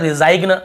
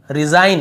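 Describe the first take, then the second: First: रिजाइग्न said as "ri-zaig-nuh"; G sounded. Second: Said in the usual way. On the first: Shown as a demonstration. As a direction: voice the silent G in रिजाइग्न. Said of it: "ऐसे नहीं पढ़ रहे". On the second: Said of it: "यहाँ पर भी रिजाइन".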